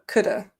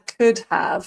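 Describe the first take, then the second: First: The word have is reduced to a weak vowel. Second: The word have is said in full.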